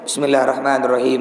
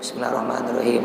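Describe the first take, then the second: First: It is recited loudly, almost shouted. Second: It is recited softly, barely audible.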